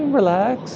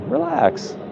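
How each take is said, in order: First: It is said in a light, friendly way. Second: It is said in a pointed, threatening way. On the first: Enjoy yourself, no worries. "they're just saying, hey, relax and uh, have a good time at the mall" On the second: Back off and stop complaining. "I put a different inflection in my voice"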